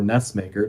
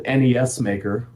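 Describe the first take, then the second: First: "nes Maker" with nes said as one syllable; one-word pronunciation. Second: "N E S Maker" with N, E, S said as separate letters; spelled-out pronunciation. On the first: Interviewee giving the tool's other name, nes as one word. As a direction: run the letters together as a word in "nes Maker". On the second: Interviewee naming a game tool both ways, letters spelled out. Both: Shown as a demonstration. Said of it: "depending on how you pronounce it".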